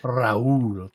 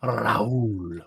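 First: Rahul with a trilled tongue R; rolled r. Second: Rahul with a strong tongue trill; rolled r. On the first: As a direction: roll the R in Rahul with the tongue tip. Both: Shown as a demonstration. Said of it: "That's how you roll your R".

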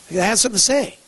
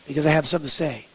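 First: Higher, with "say" lifted at the end; punched-up quote ending high on "say"; emphatic repeat. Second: Said in the usual way. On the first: Retold or imitated. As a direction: drive it home, rising on "say".

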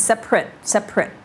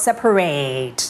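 First: "separate" squeezed to "SEP-rit"; short adjective ending. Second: "separate" with a drawn-out "-RATE"; long verb ending. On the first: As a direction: end "separate" on a short, weak vowel. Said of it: "เป็น adjective เช่น". (separate แบบ adjective เสียงท้ายสั้น) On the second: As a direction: stretch the last syllable of "separate" to rhyme with "late". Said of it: "ตะกี้ verb separate ยาว". (separate แบบ verb ลากท้ายยาว) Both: Shown as a demonstration.

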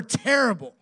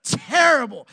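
First: Said in the usual way. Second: Terrible punched much louder and higher; emphatic repeat. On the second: Real, not acted. Pastor stressing how bad the drive home was, emphatic. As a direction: lean hard on Terrible.

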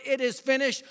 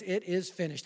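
First: Proclaimed. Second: Softer, hushed retelling of the last words; quiet. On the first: Preacher shouting Jesus' last words to the crowd, proclaimed. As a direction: ring it out like a victory cry. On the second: Preacher quietly repeating the last words during the altar call, hushed. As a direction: say it gently, almost to yourself. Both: Acted.

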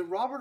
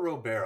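First: "Robert" said the English way, ROB-ert; English pronunciation. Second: "Robert" said French-style, roh-BAIR; French-style pronunciation. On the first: Co-host checking a player's surname, English pronunciation of "Robert". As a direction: say "Robert" with a sounded final T. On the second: Co-host offering the other surname option, French-style pronunciation of "Robert". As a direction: say "Robert" with a silent T, ending in "bair". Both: Shown as a demonstration. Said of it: "I've heard both".

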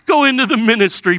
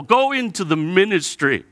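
First: Higher, louder, faster mock; mocking repeat. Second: Said in the usual way. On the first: Jeremiah to God, mocking repeat of the call. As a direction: mimic God's call bitterly. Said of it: "mocking repeat". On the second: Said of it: "repeated louder".

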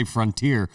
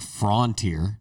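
First: "frontier" as frun-teer; FRUN-tier pronunciation. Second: "frontier" as frawn-teer; rejected FRON-tier pronunciation. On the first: Shown as a demonstration. Challenging the friend, "frontier" as frun-teer. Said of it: "you don't know how to say". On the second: Retold or imitated. Rejecting the friend's version, "frontier" as frawn-teer. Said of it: "it's definitely not".

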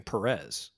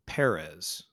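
First: Perez said the American way, puh-REZ, stress on the second syllable. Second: Perez with a lower pitch and the stress on the first syllable, PEH-res; Spanish-style Perez. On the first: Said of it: "I should just be saying Perez". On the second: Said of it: "another one I struggle with here is". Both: Shown as a demonstration.

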